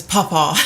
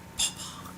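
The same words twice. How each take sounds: First: Said in the usual way. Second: Breathy whispered Papa. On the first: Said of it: "He says". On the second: Retold or imitated. Toddler whispering Papa to Mister V. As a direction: whisper Papa softly to him. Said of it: "he whispers".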